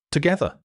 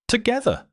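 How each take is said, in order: First: Said in the usual way. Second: Much higher, lifted Together; a woman testing the word Together, pitched up; lightly voiced tentative Together; trying out the word. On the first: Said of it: "narrated dialogue". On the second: A narrator's reading. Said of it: "like she was trying out the word".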